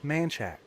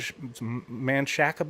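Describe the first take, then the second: First: The name is said in a clipped, anglicized way. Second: The name is said in a Spanish-style way. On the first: "becomes Manchac" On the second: "It is spelled M A N C H A C A"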